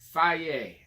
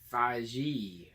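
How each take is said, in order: First: The name is said with a y sound. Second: The name is said with a j sound. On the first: The speaker calls it right. "I think that's right" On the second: The speaker calls it wrong. "I always thought it was Faji"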